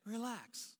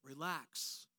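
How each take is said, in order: First: A soft, dismissive "Relax" that grates; annoying relax. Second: Low, soft, soothing "Relax."; preacher reading God's command to the anxious, softly reassuring; gentle relax. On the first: Retold or imitated. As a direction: mimic someone brushing off your panic. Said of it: "Don't you wanna punch them in the face when they say". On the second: Acted. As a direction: breathe it out like a calm reassurance. God's word to the anxious, read gently.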